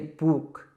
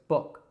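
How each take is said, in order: First: The vowel is a long oo sound. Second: The vowel is a short u sound. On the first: The speaker calls it wrong. "a lot of learners would say book, but it's not book. It's not a long oo sound" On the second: The speaker calls it right. "It's actually kind of a short u sound. So it's book"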